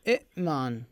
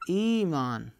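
First: A second glottal stop closes the first syllable. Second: A long vowel replaces the second glottal stop. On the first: This is the original underlying form of the word. "همزة ساكنة وقبلها همزة مكسورة" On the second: This is the form actually used in recitation. "نقلبها إلى ياء"

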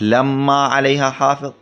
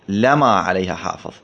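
First: The m sound in the first word is doubled. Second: The m sound in the first word is single. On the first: "قراءة شددت لما" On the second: "وقراءة خففت لما"

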